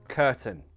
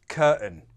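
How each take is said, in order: First: The t is pronounced as a clear t. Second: The t is replaced by a glottal stop.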